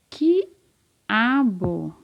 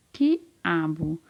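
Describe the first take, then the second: First: "quiabo" drawn out as qui-a-bo; syllable by syllable. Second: Said in the usual way. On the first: Shown as a demonstration. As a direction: split "quiabo" into long, separate syllables, qui, a, bo. ("quiabo" bem separado, qui-a-bo) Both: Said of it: "Começa com qual sílaba?".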